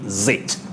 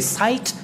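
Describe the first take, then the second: First: The ending sounds like 'zit', with a short i. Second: The ending sounds like 'site', with a long i. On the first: The speaker calls it right. "you say zit" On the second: The speaker calls it wrong. "You don't say site"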